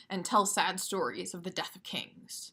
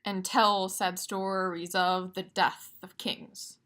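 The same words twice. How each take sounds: First: Natural actor reading. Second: Slow, every second syllable leaned on; slow recitation. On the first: Teacher showing how an actor speaks the line, natural. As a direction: say it like an actor, not a metronome. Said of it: "An actor who's reciting these lines of Shakespeare might say". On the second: Teacher reading a Shakespeare line, measured. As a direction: read it out slowly, line by line. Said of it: "We're gonna look at it now". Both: Shown as a demonstration.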